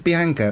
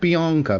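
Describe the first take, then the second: First: The name is said with a British vowel. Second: The name is said with an American vowel. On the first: The speaker calls it right. "My name's Bianca" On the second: The speaker calls it wrong. "not Bianca"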